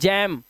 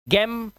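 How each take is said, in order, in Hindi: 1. अक्षर g का उच्चारण j की तरह होता है। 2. अक्षर g का उच्चारण कठोर g की तरह होता है।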